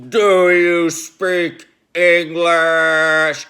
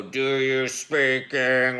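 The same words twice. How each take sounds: First: Loud, slow, booming voice that fills the room; menacing dream voice. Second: Slowed, lightly voiced retelling of the threat; hint at the scary voice without the full volume; toned-down imitation of the menacing voice. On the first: Retold or imitated. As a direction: drag each word out like a threat that isn't you. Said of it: "it sounds way more menacing than that". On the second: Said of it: "And I say it just like that".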